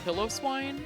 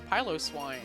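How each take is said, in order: First: The name begins like the word 'pillow'. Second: The name begins like the word 'pylos'. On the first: The speaker calls it wrong. "I thought that it was pronounced pillow swine" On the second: The speaker calls it right. "figured out it's piloswine"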